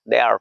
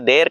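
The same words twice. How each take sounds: First: It is said in an American accent. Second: It is said in a local Indian accent. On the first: "Americans तो क्या कहेंगे, देयर कहेंगे" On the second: "local तरीके से देयर कहते हैं"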